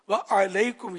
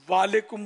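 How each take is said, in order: First: The throat consonant after 'wa' is pronounced. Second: The throat consonant after 'wa' is dropped. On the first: The speaker calls it right. "یہ رٹیں آپ" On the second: The speaker calls it wrong. "وا والیکم بولیں گے"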